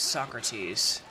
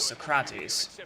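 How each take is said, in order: First: The stress is on the first syllable. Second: The stress is on the second syllable. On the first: This is the European and American pronunciation. "The European and American pronunciation is Socrates" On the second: This is the Greek pronunciation. "the Greek pronunciation is Socrates. The stress is on the craw"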